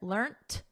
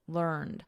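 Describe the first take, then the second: First: The word ends with a soft T sound. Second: The word ends with a soft D sound. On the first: This is the form preferred in British English. "we have a soft T here" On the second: This is the form preferred in American English. "in American, learned with a soft D"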